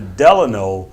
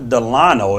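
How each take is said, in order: First: Delano is said the way the Vegas hotel says it. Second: Delano is said the way it is commonly said. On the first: This is the name of the hotel in Las Vegas. "but the Delano here in Las Vegas" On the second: This is the everyday name, not the hotel. "not the Delano as we say commonly say"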